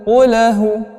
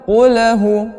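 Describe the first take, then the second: No difference in how they are said.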